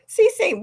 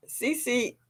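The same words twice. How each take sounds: First: Higher, louder call of the name. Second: Said in the usual way. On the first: Real, not acted. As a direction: call the name out across the room. Calling a viewer louder.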